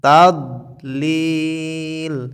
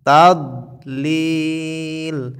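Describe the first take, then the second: First: The middle consonant is an emphatic dad sound. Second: The same.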